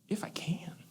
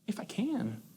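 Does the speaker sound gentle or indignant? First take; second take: gentle; gentle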